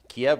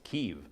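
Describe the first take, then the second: First: The name is said the Russian way. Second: The name is said the Ukrainian way. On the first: It sounds like siding with Russia. The speaker calls it wrong. "Kiev is the way the Russians pronounce it" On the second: It respects the local name. The speaker calls it right. "It's Kyiv"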